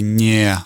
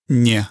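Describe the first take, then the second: First: The vowel is drawn out and emphasized. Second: The word is short and quick. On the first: This is a careful full pronunciation. The speaker calls it wrong. "you wouldn't necessarily say nie. You wouldn't really emphasize the yeah" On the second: This is how it sounds in conversation. The speaker calls it right. "in conversation, it would probably be a little shorter"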